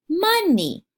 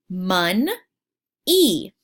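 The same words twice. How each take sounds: First: Said in the usual way. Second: "Mon-e" said in two parts, the second drawn out; split into syllables. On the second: Shown as a demonstration. Teacher to young learners, clapping "Mon-e" in syllables. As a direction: break "Mon-e" into two claps. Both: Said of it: "Let's clap that out".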